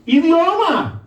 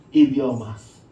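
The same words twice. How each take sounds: First: High, punched IDIOMA, falling at the end; emphatic exclamation. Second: IDIOMAS said low, settling downward; lowered repeat. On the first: Preacher driving home the key word, emphatic. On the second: Preacher letting the key word sink in, lowered. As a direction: drop the voice right down on IDIOMAS. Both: Real, not acted.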